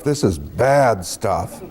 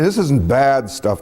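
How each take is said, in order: First: "bad" drawn out slow and low; heavy stress on BAD. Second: Said in the usual way. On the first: Shown as a demonstration. Storyteller correcting himself on the stench, "bad" stretched emphatically. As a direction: lean long and hard on "bad". Second take, stretched for contrast.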